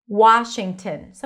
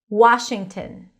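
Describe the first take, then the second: The two takes are said the same way.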